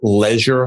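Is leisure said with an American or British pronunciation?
British. It is said with a British pronunciation. "That's why the Brits say it"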